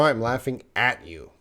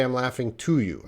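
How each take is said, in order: First: "at" picked out as the corrected word; stress on AT. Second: "to" picked out as the mistaken word; stress on TO. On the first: Teacher corrects a learner's preposition, stressing "at". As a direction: lean on "at" in "laughing at you". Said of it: "You can't say "I'm laughing to you". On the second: Teacher quotes what you can't say, stressing "to". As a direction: lean on "to" in "laughing to you". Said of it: "You can't say". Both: Shown as a demonstration.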